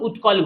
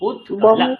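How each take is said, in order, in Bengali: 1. এটা বাংলা উচ্চারণের নিয়ম মেনে চলে। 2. এটা সংস্কৃত উচ্চারণ মেনে চলে, অর্ধ ত সহ। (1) "বাংলা যখন আমি বলছি দেখুন উৎকল বলছি" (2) "সংস্কৃত বলার সময় তখন সেটা মানতে হবে"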